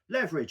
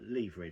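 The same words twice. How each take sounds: First: It is said with an American pronunciation. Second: It is said with a British pronunciation. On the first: The speaker calls it wrong. "if you're in America" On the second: The speaker calls it right. "because that's the real word"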